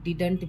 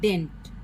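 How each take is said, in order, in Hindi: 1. बीच की d ध्वनि बोली जाती है। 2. बीच की d ध्वनि छूट जाती है। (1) "साइलेंट करने की जरूरत नहीं है" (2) "ये जो डी है इसको हम लोग साइलेंट करके भी बोल सकते हैं"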